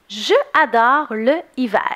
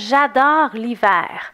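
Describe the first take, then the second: First: Je and le are said as full syllables. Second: Je and le lose their vowels and link. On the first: The speaker calls it wrong. "ça se dit beaucoup mieux que je adore le hiver" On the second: The speaker calls it right. "si je lis ma phrase comme il faut"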